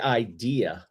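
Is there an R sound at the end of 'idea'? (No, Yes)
No. It ends in a vowel with no R sound. "I didn't add the R, so I'm not talking in the Boston accent right now"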